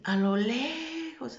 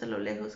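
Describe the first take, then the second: First: "lejos" stretched long and high; drawn-out emphasis. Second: Said in the usual way. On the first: Retold or imitated. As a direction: stretch "lejos" upward to show great distance. Draws out the distance of voices. ("lejos" alargado y agudo)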